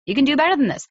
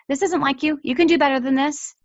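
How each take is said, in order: First: Higher, insistent push; firm demand. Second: Higher, firm insistence; firm demanding parent. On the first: Parent to misbehaving child, firm and insistent. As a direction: call them out on it. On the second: Parent to misbehaving child, firmly demanding more. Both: Shown as a demonstration. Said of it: "You demand it of them".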